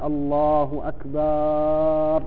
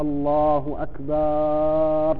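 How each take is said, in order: First: The vowel after the b is drawn out long. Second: The same.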